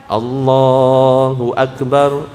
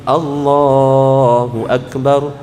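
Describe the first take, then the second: Both takes have the same delivery.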